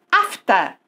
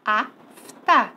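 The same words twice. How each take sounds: First: Said in the usual way. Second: AF, pause, TA; teacher splitting Afta into two separate syllables; divided into syllables. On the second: Shown as a demonstration. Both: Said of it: "Vamos dividir?".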